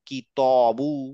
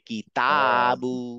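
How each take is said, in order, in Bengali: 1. t-এর পরের স্বরধ্বনিটি 'o'-র মতো শোনায়। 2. t-এর পরের স্বরধ্বনিটি খোলা 'a'-র মতো শোনায়। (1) "এখানে ত ইউজ করতাম, তাহলে বলতাম কি কি তবু" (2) "মুখটা খুলে কি তাবু"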